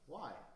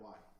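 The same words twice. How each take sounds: First: It is said warmly, with a smile. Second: It is said flatly, without a smile.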